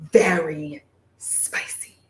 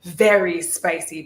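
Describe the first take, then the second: First: Slow breathy whisper of very spicy. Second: Said in the usual way. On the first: Shown as a demonstration. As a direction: whisper it, drawn out and secret.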